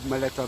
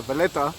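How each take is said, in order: First: Maleta said with an M, MAH-leh-tah; the slip Maleta before correcting it; misspoken Maleta. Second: Valletta said properly with a V, vah-LET-tah; corrected Valletta. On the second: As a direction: fix it to Valletta with a V. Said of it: "uh, Maleta". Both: Real, not acted.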